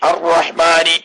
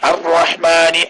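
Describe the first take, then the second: Both takes have the same delivery.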